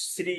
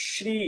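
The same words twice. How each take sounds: First: শ্রী with a long hissed s, "sri"; everyday Bengali pronunciation. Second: শ্রী with a palatal "sh", "shree"; correct pronunciation. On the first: Teacher shows the Bengali habit, everyday pronunciation. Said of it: "সাধারণত বাংলায় উচ্চারণ করার সময়". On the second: Teacher corrects the Bengali habit, correct pronunciation. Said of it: "কিন্তু এর উচ্চারণ হবে". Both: Shown as a demonstration.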